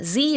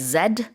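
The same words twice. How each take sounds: First: The letter is said the North American way. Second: The letter is said the English way.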